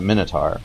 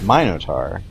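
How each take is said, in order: First: The first vowel is a short i sound. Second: The first vowel is a long i sound. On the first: "I always pronounce it" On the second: "so it should have a long I sound"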